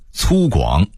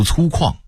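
First: Said in the usual way. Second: 粗犷 as cūkuàng; Beijing reading. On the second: Shown as a demonstration. Narrator contrasting word lists, Beijing reading. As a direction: say 犷 in 粗犷 as kuàng, not guǎng. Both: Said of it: "北京话读粗犷".

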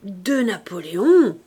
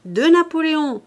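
First: Put-on loud, slow old toothless woman; vieille édentée qui grommelle. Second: High, loud tempting call; appel crié. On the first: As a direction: grumble it out loudly, drawn out, as an old crone. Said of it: "grommela une vieille édentée". (vieille femme édentée, grommelant fort et lentement) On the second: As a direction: call the offer out after her, pitched up. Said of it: "l'homme qui lui criait". (cri haut et fort pour l'appâter) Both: A narrator's reading.

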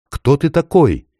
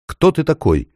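First: Put-on high, hushed boy asking; awed question. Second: Put-on high, scared boy asking; frightened question. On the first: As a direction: ask in wonder. The boy asks again. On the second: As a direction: ask nervously into the dark. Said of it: "наконец спросил".

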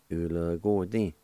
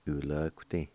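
First: "U l g ti" run together, UO sounded after the "g"; full pronunciation. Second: "u l g ti" run together with no UO after "g"; shortened pronunciation. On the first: Teacher giving learners the first way as a whole word. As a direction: say "U l g ti" connected, voicing "go" in full. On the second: Teacher giving learners the second way as a whole word. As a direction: say "u l g ti" connected, dropping the vowel after "g". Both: Shown as a demonstration. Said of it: "Either way, okay?".

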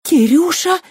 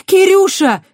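First: High, loud shocked cry; gasping. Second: Very high, loud yell; shout. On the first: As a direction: gasp his name. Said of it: "ахнула Кристина". (изумлённо ахнув) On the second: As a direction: scream his name as they block her. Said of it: "выкрикнула Кристина". (громкий отчаянный крик) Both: A narrator's reading.

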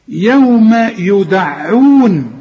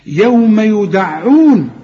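First: يوم يدعون very slow, يوم stretched; تلاوة ممدودة ليوم يدعون; drawn-out recitation. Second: Slow يوم يدعون with a clear ع; تلاوة صحيحة ليوم يدعون; correct recitation. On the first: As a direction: draw يوم يدعون out long. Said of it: "ما تقولش يوم يدعون". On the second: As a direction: recite يوم يدعون slowly, ع fully sounded. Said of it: "لكن بحققها". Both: Shown as a demonstration.

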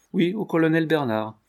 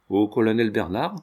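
First: OUI higher, an affirmative reply; higher-pitched confirmation of colonel Bernard; confirming answer. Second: BERNARD rising as a question; questioning echo. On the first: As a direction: confirm it with a raised Oui, then the name. Confirms the name just asked. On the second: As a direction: ask it back, lifting the end on Bernard. Asks back whom to write to. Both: A narrator's reading.

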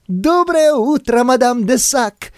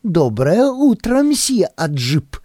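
First: Put-on high, slow, cheerful girl's greeting; laughing greeting. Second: Put-on slow amused girl's greeting. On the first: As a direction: sing out hello, laughing. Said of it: "смеялась девушка внизу". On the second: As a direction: greet him with a giggle in the voice. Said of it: "смешливое приветствие". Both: A narrator's reading.

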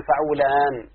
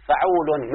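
First: فعولان ending on a drawn-out aan; added long ending. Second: Said in the usual way. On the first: Shown as a demonstration. Teacher giving students a second example, lengthened ending. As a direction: hold the final alif of فعولان, then close on n. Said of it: "زيادة الساكن فقط". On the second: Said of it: "مثلًا".

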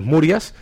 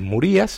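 First: Murias con acento en la a, "Mu-RIAS"; "Murias" llano, la fuerza en la a; sin acento. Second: Murías con la i tónica, "Mu-RÍ-as"; "Murías" acentuando la i; con acento en la i. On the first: (pronunciación Murias, acento en la a) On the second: (pronunciación Murías, golpe en la í) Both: Shown as a demonstration. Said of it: "si lleva acento en la I es Murías".

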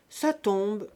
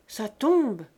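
First: Short, clipped flat statement «Ça tombe»; curt reply. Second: Rising, curious question on tombe; asking question. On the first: The old grandmother curtly answers Rose, brief and dry. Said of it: "répondit-elle de sa voix brève". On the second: Rose asks the old woman if it is snowing, questioning. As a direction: ask «Ça tombe?» as a real question, loud on tombe. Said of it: "demanda Rose". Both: A narrator's reading.

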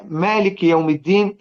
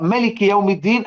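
First: مالك with a long, held first vowel; long alif in مالك. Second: مالك read short, as "malik"; reading without alif. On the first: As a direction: stretch the first syllable of مالك as "maa-lik". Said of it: "وأزود ألف كده". (قراءة «مالك» بإثبات الألف ومدها) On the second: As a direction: keep the first vowel of مالك short. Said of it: "هي مرسومة ملك". (قراءة «مالك» بحذف الألف: ملك) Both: Shown as a demonstration.

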